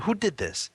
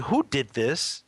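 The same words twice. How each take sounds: First: Higher, falling "Who did this?"; mildly annoyed "Who did this?" that drops at the end; a little frustrated. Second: Drawn-out, rising "Who did this?"; slow "Who did this?" ending on a rise; slow puzzled question. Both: Retold or imitated. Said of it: "I said, a little frustrated".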